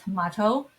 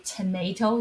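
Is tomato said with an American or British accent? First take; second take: British; American. First: It is said in a British accent. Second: It is said in an American accent. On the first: "but in British English, we say tomato" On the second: "we say tomato here"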